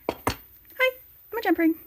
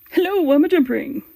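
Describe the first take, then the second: First: A smaller, meeker put-on jump ring voice. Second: A bigger, bolder put-on jump ring voice.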